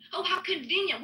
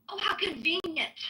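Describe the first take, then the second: First: Sarcasm leaned on "convenient"; sarcastic jab said twice. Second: Dry, sarcastic "how convenient"; biting sarcasm at an opponent. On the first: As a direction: lean into "convenient" with scorn. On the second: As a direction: sneer it with mock surprise. Sarcastic jab at Pepe. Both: Real, not acted.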